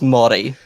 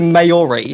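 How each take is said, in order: First: The word is said with a native Māori pronunciation. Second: The word is said with an anglicized pronunciation. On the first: This is how the word is properly said. The speaker calls it right. "It is pronounced Māori" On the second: This imitates how someone else said it. The speaker calls it wrong. "You said Maori"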